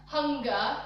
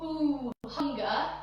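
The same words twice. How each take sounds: First: Said in the usual way. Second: Breathy ooh. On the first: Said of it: "then you respond on the". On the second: Shown as a demonstration. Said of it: "as if it's like a breath".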